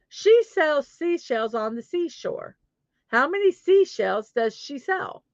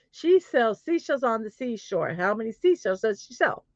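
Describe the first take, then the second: First: Careful tongue twister. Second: Said in the usual way. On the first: Shown as a demonstration. First, slower take of tongue twister.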